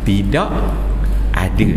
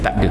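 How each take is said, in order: First: The phrase is said in its full form. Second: The phrase is said in a shortened form. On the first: This is the formal written form. "Sebenarnya perkataan dia tidak ada" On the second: This is the eased everyday form. "tapi kita baca dengan tashil"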